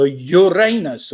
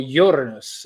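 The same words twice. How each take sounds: First: Uranus with a long RAY in the middle; alternative pronunciation. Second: Uranus stressed on the first syllable; alternative pronunciation. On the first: Quiz host offering both pronunciations of an answer, Uranus said yoo-RAY-nus. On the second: Quiz host offering the other pronunciation, Uranus said YOOR-uh-nus. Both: Shown as a demonstration. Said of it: "depending how you want to pronounce it".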